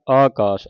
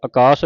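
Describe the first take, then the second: First: ਆਕਾਸ with a long opening "aa"; correct long-vowel reading. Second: ਆਕਾਸ with a short opening vowel; wrong short-vowel reading. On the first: Teacher showing the right reading, ਆਕਾਸ as "aa-kaas". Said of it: "ਐੜੇ ਕਰਨਾ". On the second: Teacher showing what not to read, ਆਕਾਸ as "uh-kaas". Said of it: "ਆਕਾਸ ਨਹੀਂ ਪੜ੍ਹਨਾ". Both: Shown as a demonstration.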